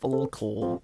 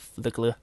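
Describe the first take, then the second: First: It is said as two syllables, fool-kool. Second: It is said as two syllables, flick-la. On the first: "some people pronounce it as Fulcool" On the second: "or Flickla"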